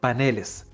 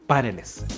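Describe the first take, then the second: First: The stress is on the second syllable. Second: The stress is on the first syllable. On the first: The speaker calls it right. "en plural deja de ser una palabra aguda y pasa a grave" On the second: The speaker calls it wrong. "nunca a esdrújula, de ahí que es incorrecto decir paneles"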